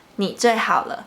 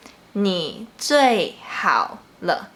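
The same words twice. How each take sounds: First: "你最好了" quicker, in one flow; natural speed. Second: "你最好了" slow, syllable by syllable, "你" and "好" low; low third tones. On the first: Teacher replays the phrase for learners, joined up and quicker. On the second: Teacher lets learners listen once more, slow and separated. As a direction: draw out "你最好了" with low falling "你" and "好". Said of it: "They both start from a low pitch and then go down a bit". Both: Shown as a demonstration.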